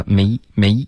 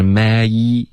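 First: "may" short with a half-closed mouth; narrow diphthong. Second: "may" with open mouth, gliding fully to ee; open diphthong. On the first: Retold or imitated. Teacher copies what to avoid, narrow short "may". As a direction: squeeze "may" into one tight vowel. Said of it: "别发may，may". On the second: Shown as a demonstration. Teacher corrects student, wide gliding "may". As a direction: stretch both vowels of "may". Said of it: "这个双元音".

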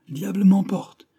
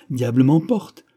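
First: Diable m'emporte! shouted much higher by a whole class; children shouting. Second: Diable m'emporte with m'emporte stressed and rising; stressed oath. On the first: Whole school cries out the oath with glee, loud and high. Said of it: "toute l'école s'écria". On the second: Musketeer swears in front of the schoolchildren, m'emporte stressed. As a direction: lean into m'emporte like a soldier's oath. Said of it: "il accentua son juron". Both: A narrator's reading.

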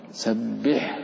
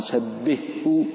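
First: سبحه with the ح and the ه each sounded distinctly; clear ح. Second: سبحه with the ح merged into the ه, like "sabbihhu"; merged h, wrong way. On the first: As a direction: separate the ح from the ه in سبحه. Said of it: "بين الحاء". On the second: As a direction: blur the ح into the ه. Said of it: "فلأدغمن الحاء في الهاء وأقول". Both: Shown as a demonstration.

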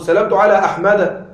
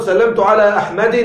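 First: أحمد said "ahmada", open final -a; fatha ending. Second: أحمد said "ahmadin", lingering on final -in; wrong kasra with tanween. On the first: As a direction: end أحمد on short a, no n. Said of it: "مجرور بالفتحة". (أحمد بفتحة في آخرها بدون تنوين) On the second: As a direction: put a sounded -in on the end of أحمد. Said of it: "لا تقل". (أحمد بكسرة منونة في آخرها) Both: Shown as a demonstration.

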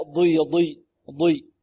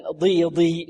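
First: ضي with tongue pressed up to the palate; emphatic ḍad. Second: ضي with a light, unemphatic ض; faulty demo syllable ضي; wrong thin ḍad. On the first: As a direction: correct itbaq on ضي. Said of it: "فيها إطباق". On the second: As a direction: let ضي lose its heaviness. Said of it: "لا". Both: Shown as a demonstration.

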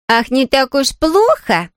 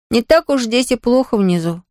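First: Higher, slow, mocking echo; mocking Lola. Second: Said in the usual way. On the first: A narrator's reading. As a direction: tease her brother by echoing him. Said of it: "посмеивалась она". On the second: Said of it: "измученно сказал Том".

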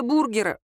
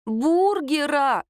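First: Said in the usual way. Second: Бургера drawn out slow and high; indignant stress on Бургера. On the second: A narrator's reading. Lera showing friends the photo, indignantly stretching Бургера. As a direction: stretch Бургера in scandalised disbelief.

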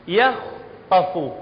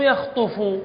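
First: يخطف said slowly with a short a after the kh and a short u at the end: yakhtafu; correct tajweed reading. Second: يخطف read wrongly as yakhtufu, with u after the t; mock wrong reading. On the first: Teacher models the correct يخطف for students, slow and careful. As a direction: stretch يخطف out slowly, keeping the kh-t cluster clear. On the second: Teacher imitates a student misreading يخطف, lightly mocking. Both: Shown as a demonstration. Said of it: "مو يخطف".

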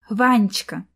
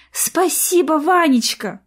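First: Tender sing-song. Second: "Ванечка" bright, high and loud with a falling end; joyful thanks. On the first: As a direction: croon "Ванечка" sweetly. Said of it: "нежно пропела она". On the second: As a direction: beam out "Спасибо, Ванечка!". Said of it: "радостно улыбнулась Арина". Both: Acted.

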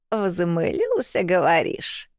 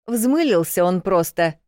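First: Медленно, недоверчиво протягивая «Взмылился»; старуха переспрашивает, растягивая «Взмылился»; grumpy old woman. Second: Said in the usual way. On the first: A narrator's reading. («Взмылился» протяжно, с подозрением) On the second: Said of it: "перешла я в наступление".

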